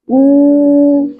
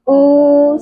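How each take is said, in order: First: The vowel is said with lips strongly rounded. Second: The vowel is said without lip rounding. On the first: The speaker calls it right. "memunyungkan kedua bibir u gitu ya" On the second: The speaker calls it wrong. "bukan u sekedar saja ya"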